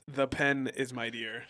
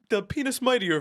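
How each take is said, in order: First: Pen and is are kept as separate words. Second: Pen and is are run together as one word. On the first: It names the intended category. The speaker calls it right. "It's the pen is mightier" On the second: It turns the phrase into a crude joke. The speaker calls it wrong. "he'd always mispronounce like"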